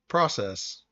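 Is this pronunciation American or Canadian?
American. It is pronounced the American way. "We always say what?"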